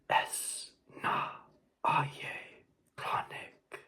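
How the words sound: It is whispered in a harsh tone. "they can be whispered like that in a harsh tone"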